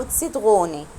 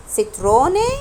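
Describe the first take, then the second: First: "اتستغوني" slowly, with r as gh; throaty R. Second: "ستروني" slowly, with a tongue-tip r; tapped R. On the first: Teacher showing how R changes the word, throaty R. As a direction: say "اتستغوني" with the r like Arabic ghayn. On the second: Teacher showing how R changes the word, tapped R. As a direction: say "ستروني" with the r as in Arabic ra. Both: Shown as a demonstration. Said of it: "أنا نطقته إر ولا نطقته إغ".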